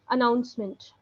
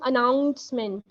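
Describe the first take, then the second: First: The 'ou' syllable is stressed only lightly. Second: The 'ou' syllable is stressed very heavily. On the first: The speaker calls it right. "don't put too much of emphasis here" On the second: The speaker calls it wrong. "don't put too much emphasis on O U. You are doing announcement"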